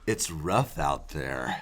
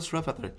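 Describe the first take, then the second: First: It is said in a menacing way. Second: It is said in a casual, friendly way.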